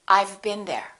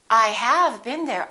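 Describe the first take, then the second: First: I have is contracted into one syllable. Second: I have is said in full with emphasis. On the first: The speaker is stating it normally. "in normal speech, you would definitely make this contraction" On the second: The speaker is insisting on the fact. "If they want to emphasize it"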